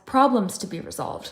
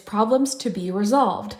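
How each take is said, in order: First: The stress is on "problems". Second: The stress is on "resolved".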